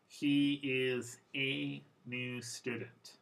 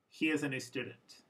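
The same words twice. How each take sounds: First: Every word is pronounced fully and clearly. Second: The article is reduced to a quick schwa.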